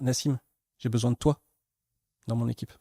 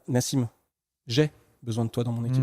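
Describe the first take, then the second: First: The emphasis falls on "toi". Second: The emphasis falls on "j'ai". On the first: It is this particular person who is needed. "c'est vraiment de toi dont j'ai besoin" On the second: The speaker personally is the one in need. "c'est moi qui ai besoin de toi"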